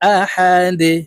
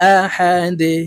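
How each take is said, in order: First: The word ends on a stopped, bounced d. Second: The same.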